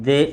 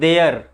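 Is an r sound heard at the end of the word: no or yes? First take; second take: no; yes. First: The word ends without any r sound. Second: The word ends with an audible r sound. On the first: The speaker calls it right. "But इसको pronunciation क्या करते हैं हम लोग, दे" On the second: The speaker calls it wrong. "इसको हम लोग बोलते हैं ऐसे देयर, लेकिन देयर नहीं पढ़ेंगे इसको"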